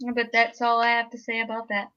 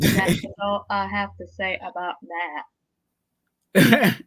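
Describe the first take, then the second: First: It is said in his normal voice. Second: It is said in a Forrest Gump voice.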